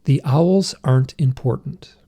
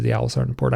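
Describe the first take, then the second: First: Measured, deliberate retold statement; unhesitating pronouncement. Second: Said in the usual way. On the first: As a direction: state it slowly and with full certainty. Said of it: "without skipping a beat".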